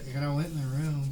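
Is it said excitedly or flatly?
flatly. It is said flatly, in a monotone.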